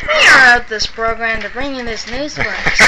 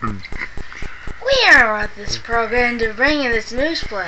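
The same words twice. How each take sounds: First: Put-on old radio announcer. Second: Slow, deep announcer read; old radio announcer. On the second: Pretend. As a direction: drawl it like a radio newsman. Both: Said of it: "say what you were saying a minute ago".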